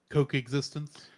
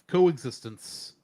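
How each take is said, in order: First: The first part sounds like the word coke. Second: The first part is a plain co sound. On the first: The speaker calls it wrong. "I'm going to start calling it Coke existence" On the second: The speaker calls it right. "I'll say it right this time"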